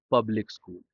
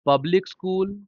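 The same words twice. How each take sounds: First: public school pitched low, falling away; falling tune. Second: public school pitched high and held up; raised tune. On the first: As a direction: drop public school down like a reply. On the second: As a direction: keep public school lifted, left open. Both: Shown as a demonstration. Phrase said twice, tune contrasted.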